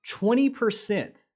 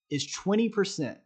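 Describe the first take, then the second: First: Twenty percent said slow and higher, punching Twenty; emphatic repeat. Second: Said in the usual way. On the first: Shown as a demonstration. Trader stressing a surprising win rate to viewers, emphatic and slow. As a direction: hammer home Twenty percent, slowly.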